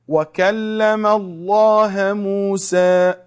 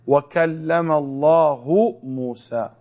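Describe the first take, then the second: First: The word Allah ends with an 'a' vowel. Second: The word Allah ends with a 'u' vowel. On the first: "Is it right?" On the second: "Allah or Allahu"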